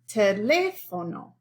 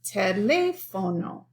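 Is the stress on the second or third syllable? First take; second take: second; second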